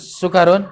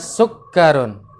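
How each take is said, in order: First: The k sound is short and single. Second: The k sound is held long and doubled. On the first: The speaker calls it wrong. "Jangan sukarun. Enggak enak" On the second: The speaker calls it right. "di kafnya itu ada tasydidnya"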